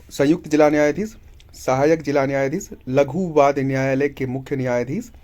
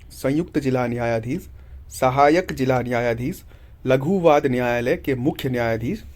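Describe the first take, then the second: No difference in how they are said.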